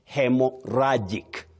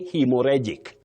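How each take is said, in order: First: The second part is said like 'rajik'. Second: The second part is said like 'rejik'. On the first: The speaker calls it right. "rhagic, not regic" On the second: The speaker calls it wrong. "Don't say hemorrhagic. ... common but wrong"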